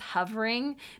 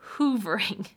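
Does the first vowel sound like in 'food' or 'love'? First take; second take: love; food. First: The first vowel is a short 'uh' sound. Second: The first vowel is a long 'oo' sound. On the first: This is the usual way of saying the word. "I think she means hovering" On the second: This is how someone else says the word. "She says hoovering, so that's why I'm saying it that way"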